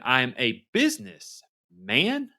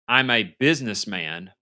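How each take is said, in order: First: The part 'business' gets strong emphasis. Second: Businessman is said as one plain word.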